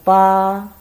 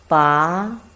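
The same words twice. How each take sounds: First: It is said with the first tone. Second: It is said with the second tone. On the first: "first tongue" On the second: "the second tongue"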